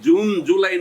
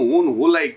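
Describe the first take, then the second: First: Both words start with a J sound. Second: Both words start with an H sound. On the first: The speaker calls it right. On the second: The speaker calls it wrong.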